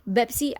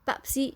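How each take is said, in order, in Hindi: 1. यह अरबी लहजे में बोला गया है। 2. यह अंग्रेज़ी लहजे में बोला गया है। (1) "बेप्सी अरबिक में पेप्सी को कहा जाता है" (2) "अंग्रेज़ी में बोला जाता है"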